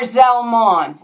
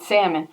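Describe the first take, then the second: First: The name begins with a Z sound. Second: The name begins with an S sound. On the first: "It's got Z" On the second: "That's what it looks like it's saying"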